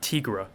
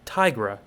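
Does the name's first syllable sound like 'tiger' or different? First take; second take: different; like tiger. First: The first syllable does not sound like tiger. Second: The first syllable sounds like the word tiger. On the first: The speaker calls it wrong. "not Tigra" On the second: The speaker calls it right. "We say tiger, not tiger, so we'll say Tigra"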